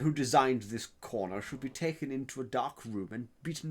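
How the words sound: It is said in a posh English accent. "I'll try posh English perhaps"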